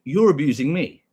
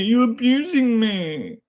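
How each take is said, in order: First: Said in the usual way. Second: Slow, high drawn-out whine; whiny mock victim. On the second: Streamer parodying a chatter's complaint, slow high whine. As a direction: stretch it out like a mock crybaby.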